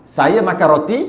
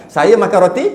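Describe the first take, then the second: The two takes are said the same way.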